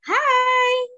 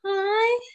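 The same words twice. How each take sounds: First: It is said in a happy, cheerful way. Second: It is said in a frightened way. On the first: "kalau kita pakai ekspresi bahagia" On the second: "Kalau kita pakai ekspresinya takut"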